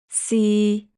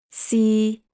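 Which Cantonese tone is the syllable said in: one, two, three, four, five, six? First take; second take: three; three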